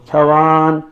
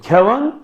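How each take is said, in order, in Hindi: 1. दूसरे अक्षर का स्वर लंबा है। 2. दूसरे अक्षर का स्वर छोटा है।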